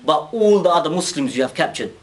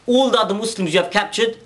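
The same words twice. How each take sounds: First: Said in the usual way. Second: Pitched higher, rising on ALL, pressing the demand; emphatic repeat. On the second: Retold or imitated. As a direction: lift the whole line and lean hard on All.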